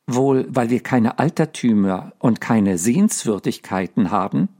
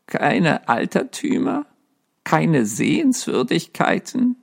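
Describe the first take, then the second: First: Put-on a touch of snippy girl; a light, saucy jab at him; understated cheeky retort; pert. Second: Higher, rising mock disbelief at "Keine Altertümer?"; lightly voiced ghost echoing in disbelief; incredulous ghost. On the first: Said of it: "sagte Virginia schnippisch". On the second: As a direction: throw her words back, offended. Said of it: "Erwiderte das Gespenst". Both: A narrator's reading.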